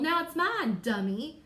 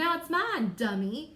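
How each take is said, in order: First: It is said with a sassy, mean attitude. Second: It is said with a sassy, mean attitude.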